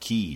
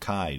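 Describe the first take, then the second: First: The word rhymes with 'see'. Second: The word rhymes with 'eye'. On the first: "I think the official pronunciation is key" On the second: "I always pronounce it Kai"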